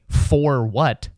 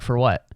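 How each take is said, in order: First: The word 'for' is fully enunciated. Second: The word 'for' is reduced to 'fer'. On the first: The speaker calls it wrong. "I'm not a robot" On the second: The speaker calls it right. "I say fer"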